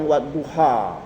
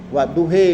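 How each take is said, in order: First: The word ends in an a sound. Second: The word ends in an e sound. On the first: The speaker calls it right. "mereka nggak bisa bilang wadduha" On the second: The speaker calls it wrong. "wadduhe mereka bilang"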